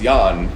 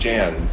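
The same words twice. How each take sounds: First: The name is said in its original way. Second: The name is said in the American way. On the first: This is the name's real pronunciation. The speaker calls it right. "but it's Jan" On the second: This is how Americans say the name. The speaker calls it wrong. "but we called him Jan, so Americans can't get anything right"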